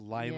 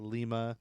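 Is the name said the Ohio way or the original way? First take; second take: Ohio way; original way. First: It uses the local Ohio pronunciation. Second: It uses the original foreign pronunciation. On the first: This is how the Ohio town is called. The speaker calls it wrong. "Ohio's filled with" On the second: This is how the Peruvian capital is called. The speaker calls it right. "instead of Lima"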